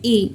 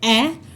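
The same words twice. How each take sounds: First: The vowel is long, like the letter's name. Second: The vowel is short, as in cat. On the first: "letter name होता है ए" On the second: "letter sound होता है ए"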